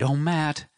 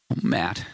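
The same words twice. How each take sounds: First: Put-on raised, pleading young woman's voice; young wife, tearful. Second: Hushed grieving wife. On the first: Wife finding her husband in the dark tent, tearful young woman's voice. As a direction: call out to him, hoping it's really him. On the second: Wife breaking down while recounting the killings, hushed. Mary voiced by narrator. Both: A narrator's reading.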